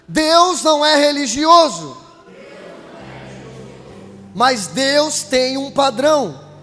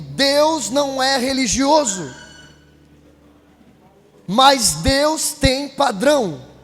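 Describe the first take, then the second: First: It is said louder and stronger. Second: It is said at normal loudness.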